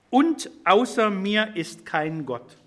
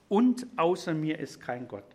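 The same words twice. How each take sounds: First: Slow, weighty, each word set apart; slow emphatic reading. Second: Said in the usual way. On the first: Shown as a demonstration. Preacher reading God's words to the congregation, slow and emphatic. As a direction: read it out slowly, letting every word land. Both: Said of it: "da scheint die Betonung der Aussage".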